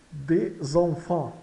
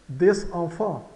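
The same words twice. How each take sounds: First: "Des enfants" slowly as "dê-zan-fan", S turned to Z; S liaison. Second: "Des enfants" slowly, S at the end of des before enfants; words set apart. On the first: Teacher showing where words join, Des enfants with Z liaison. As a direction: link Des to enfants with a Z sound. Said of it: "Então a ligação do S". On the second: Teacher pointing out the S, Des enfants slow and separated. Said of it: "Ligação. Ocorre a ligação do S". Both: Shown as a demonstration.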